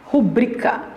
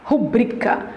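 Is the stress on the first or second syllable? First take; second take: second; second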